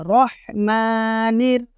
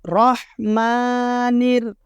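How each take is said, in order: Both takes have the same delivery.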